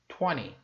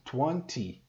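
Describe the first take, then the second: First: The middle T sound is dropped. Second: The middle T sound is strong and clear. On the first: "no inglês americano, o T não é pronunciado. Eles falam twenty. Você vê que o T some" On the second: "no inglês britânico, ele pronuncia bastante o T... Ele fez esse T bem forte"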